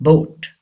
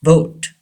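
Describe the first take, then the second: The two takes are said the same way.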